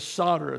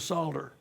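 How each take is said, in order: First: The word is said without an L sound. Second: The word is said with a clear L sound. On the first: "the English pronunciation is solder. The L is silent" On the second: "The British pronounce, do pronounce the L. They do the solder"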